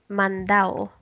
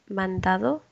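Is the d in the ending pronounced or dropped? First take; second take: dropped; pronounced. First: The d is dropped, Cuban style. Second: The d in the ending is pronounced.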